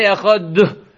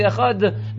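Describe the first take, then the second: First: "echad" with the final d hit too hard, releasing into an extra "duh"; overemphasized dalid. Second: "echad" softly, with a clear but unforced final d; nicely pronounced dalid. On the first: Teacher warning students against overdoing the dalid, "echad" with an overemphasized final d. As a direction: overdo the last consonant of "echad", adding a little vowel after it. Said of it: "too much emphasis on the dalid".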